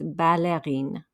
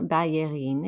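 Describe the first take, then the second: First: The double L is said as an L sound. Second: The double L is said as a Y sound. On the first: The speaker calls it right. "here you'll hear the L" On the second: The speaker calls it wrong. "It's not ballerine"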